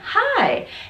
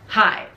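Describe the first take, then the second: First: The pitch goes up and then down. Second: The pitch stays flat throughout the word. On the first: The speaker sounds friendly and nice. The speaker calls it right. "if we go up and down, hi, it sounds so nice" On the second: The speaker sounds gruff and unfriendly. The speaker calls it wrong. "just a flat intonation. Hi. That sounds a bit gruff, a bit aggressive"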